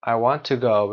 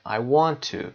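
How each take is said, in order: First: "to" reduced to a short schwa; quick weak "tuh" for "to" before "go". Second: "to" with a full oo vowel; stressed, unreduced "too" for "to"; stressed strong "to". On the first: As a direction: say "to" as an unstressed "tuh". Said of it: "ت با صدای شعا هست". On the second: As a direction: say "to" like "too" at the end. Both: Shown as a demonstration.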